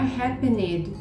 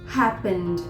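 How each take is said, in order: First: The ending is said as a separate syllable. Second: The ending is blended in without an extra syllable. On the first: The speaker calls it wrong. "Não é happened" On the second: The speaker calls it right. "como se não tivesse e no meio"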